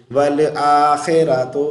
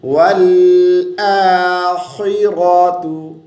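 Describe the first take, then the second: First: आखिरतु spoken as aa-khe-ra-to, thin letters; wrong khe sound. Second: आखिरतु slowly chanted with heavy khi and ra; correct thick letters. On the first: Teacher shows the mistake, आखिरतु with thin khe. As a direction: say वल आखिरतु in talking voice with e vowel. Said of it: "खे नहीं पढ़ेंगे". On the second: Teacher models for students, आखिरतु slow and thick. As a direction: recite वल आखिरतु, long aa, no bounce on l. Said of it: "खा और रा को मोटी आवाज़ से". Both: Shown as a demonstration.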